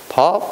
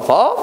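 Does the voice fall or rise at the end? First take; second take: fall; rise. First: It falls at the end, like a confirmation. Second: It rises at the end, like a question.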